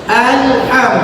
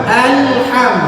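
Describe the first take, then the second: No difference in how they are said.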